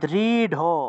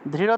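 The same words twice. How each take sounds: First: The final consonant is an aspirated dh stop. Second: The final consonant is a flapped r-like sound. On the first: "আমরা উচ্চারণ করব দৃঢ়" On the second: "দৃঢ় থাকলে"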